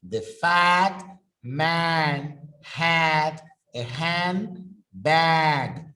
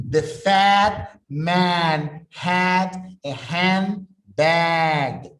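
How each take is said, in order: No difference in how they are said.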